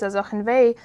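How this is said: It runs together as one smooth word. "like as a smooth uh, phrase"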